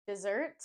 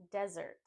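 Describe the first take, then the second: First: Dessert as "dih-ZURT", rising; contrasted word. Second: Desert as "DEZ-urt", falling; contrasted word. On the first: Teacher setting dessert against desert, stressed ZURT. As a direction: stress the second syllable of dessert. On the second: Teacher setting desert against dessert, stressed DEZ. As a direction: stress the first syllable of desert. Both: Shown as a demonstration. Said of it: "A popular mispronunciation is between two words".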